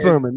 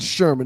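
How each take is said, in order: First: The name begins with a plain s sound. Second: The name begins with a sh sound. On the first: The speaker calls it right. "It's it is sermon" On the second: The speaker calls it wrong. "not not Sherman"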